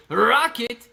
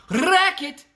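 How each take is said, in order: First: Rocket drawn out slowly with an O. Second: High, rolled R on Racket; tongue-rolled racket. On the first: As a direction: say "rocket" slowly, O rather than A. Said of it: "But I say rocket". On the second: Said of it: "with the tongue and a racket". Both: Shown as a demonstration.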